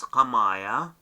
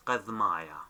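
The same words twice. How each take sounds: First: Qamaya with no d or th before the m; silent daleth. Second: Qadmaya with the d said as soft th; qath-maya, the daleth voiced as th; daleth sounded as th. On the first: Teacher giving Dashtan Ninwe dialect, qamaya with silent daleth. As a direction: drop the daleth, qa-maya. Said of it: "here I silent the daleth". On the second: Teacher quoting Eastern dialect, qadmaya with th sounded. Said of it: "it sounds as T H". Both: Shown as a demonstration.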